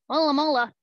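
It is said in a goofy voice.

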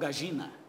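The double L is said as a zh-like sound. "Eles falam gagina"

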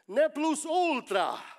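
The phrase is said with a Latin pronunciation. The speaker calls it right. "That's a Latin word"

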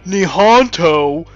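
It is said with an American pronunciation. The speaker calls it wrong. "The American way of saying Nihonto, but that's not right"

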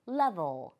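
It is said with a native English pronunciation. The speaker calls it right. "레벨이 아니라 level"

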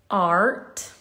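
The r sound is pronounced after the vowel. "In American English, it's art. Okay, you pronounce the R"

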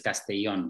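The double L has the Spain Spanish sound. "the Spanish way is Castellón"

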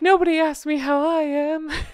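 It is said tearfully, with a sigh.

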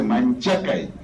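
The middle consonant is a ch sound. This is how southern speakers say it. "El sureño dice Manchakai"

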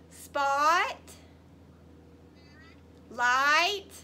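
The two parts have a pause between them.

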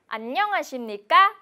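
The pitch rises and falls many times. The speaker calls it wrong. "ngữ điệu của bạn bị lên xuống nhiều lần thì đó là chưa chính xác"

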